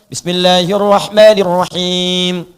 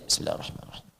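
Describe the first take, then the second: First: It is recited loudly and audibly. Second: It is recited quietly, almost under the breath. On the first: The prayer is one recited aloud. "kita keraskan" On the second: The prayer is one recited silently. "maka dibaca sir juga"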